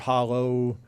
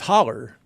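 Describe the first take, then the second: First: The word ends in a clear o vowel. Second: The word ends in an r-colored vowel. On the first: It reflects standard outside speech. The speaker calls it wrong. "it just seems so weird to to say holla or hollow" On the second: It reflects local rural speech. The speaker calls it right. "that's how we say it in the rural Ozarks"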